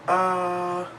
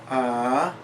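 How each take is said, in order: First: The pitch stays high and level. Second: The pitch rises from middle to high. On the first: "a high-pitched flat tone" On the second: "a rising tone"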